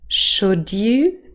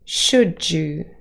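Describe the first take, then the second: First: The d and y sounds stay separate. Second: The d and y sounds blend together. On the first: "received pronunciation" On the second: "yod coalescence"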